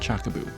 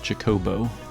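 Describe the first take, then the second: First: The middle syllable has an 'uh' vowel. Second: The middle syllable has an 'oh' vowel. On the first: The speaker calls it wrong. "but not Chockaboo" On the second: The speaker calls it right. "Pretty sure it's Chocobo"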